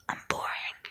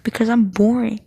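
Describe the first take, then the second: First: A soft, breathy, mock-weepy "I'm boring"; mock sad whisper. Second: Said in the usual way. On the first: Real, not acted. Vlogger mock-lamenting her dullness to viewers, whispered. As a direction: whisper "I'm boring" as a half-joking whimper. Whispered self-pitying repeat.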